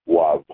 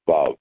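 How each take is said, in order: First: The word begins with a W sound. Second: The word begins with a V sound.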